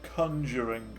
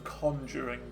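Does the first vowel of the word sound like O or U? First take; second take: U; O. First: The first vowel sounds like U in cup. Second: The first vowel sounds like O in con. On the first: This is how others say it. The speaker calls it wrong. "Why do they say conjuring" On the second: This is how it is spelled. The speaker calls it right. "Because it's definitely an O, isn't it? And not a U"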